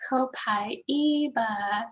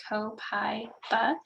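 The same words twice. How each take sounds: First: Copaiba slowly as co-pa-EE-ba; slow, careful co-pa-EE-ba; four-syllable copaiba. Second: Copaiba as co-PIE-ba, three syllables; slow co-PIE-ba, three syllables. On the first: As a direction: stretch copaiba out, co-pa-EE-ba. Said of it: "it's the four syllables". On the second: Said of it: "the three syllables". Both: Shown as a demonstration.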